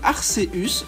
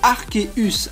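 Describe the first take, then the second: First: The c is pronounced as an s sound. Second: The c is pronounced as a k sound. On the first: The speaker calls it wrong. "prononcé parfois à la légère comme Arceus" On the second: The speaker calls it right. "sa véritable prononciation est bien Arceus, avec un K"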